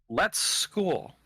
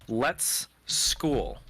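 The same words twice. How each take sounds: First: The name is said quickly and less clearly. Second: The name is said slowly and more clearly. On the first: The speaker calls it wrong. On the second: The speaker calls it right.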